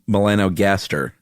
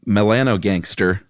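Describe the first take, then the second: First: The ending sounds like gaster, without an n. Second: The ending sounds like the word gangster. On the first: The speaker calls it right. "but it's not gangster, unfortunately. It's Melanogaster" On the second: The speaker calls it wrong. "it's impossible to read this next word without reading it like like this"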